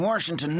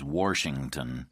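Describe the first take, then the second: First: Washington said as Warshington with an added r. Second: Washington said as Warshington by the narrator. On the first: Acted. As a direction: say Washington like Warshington, old rural way. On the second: Shown as a demonstration. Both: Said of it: "which he pronounces Washington".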